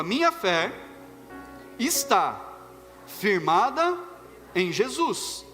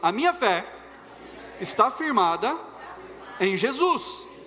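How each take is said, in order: First: It is said tentatively, like a rehearsal. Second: It is said fervently, with a believer's conviction.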